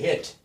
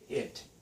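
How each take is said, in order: First: The word begins with an h sound. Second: The word begins directly with a vowel. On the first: The speaker calls it wrong. "a friend of mine would say hit instead of it" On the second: The speaker calls it right. "I could say it, no problem"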